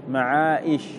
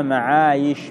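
First: معائش with a glottal stop after long aa; wrong hamza form. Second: معايش with a y glide after long aa. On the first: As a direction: catch a hamza in معائش before ish. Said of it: "ما تقول معايش". (نطق معائش بالهمزة) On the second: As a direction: glide through معايش on a clear y, no stop. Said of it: "وإنما معايش بالياء". (نطق معايش بياء صريحة دون همزة) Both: Shown as a demonstration.

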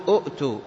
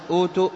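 First: أؤتوا with a glottal catch after a short "u"; أؤتوا as "u'too", hamza sounded; original two-hamza form. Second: أوتوا with one long smooth "oo" after the opening hamza; long-vowel أوتوا, "ootoo"; madd vowel. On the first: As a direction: cut the first vowel short, "u'-too", in أؤتوا. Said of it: "لأن أصل أوتوا أؤتوا". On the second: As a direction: draw out the first vowel of أوتوا, no catch. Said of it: "فأبدلت الهمزة إلى حرف مد". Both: Shown as a demonstration.

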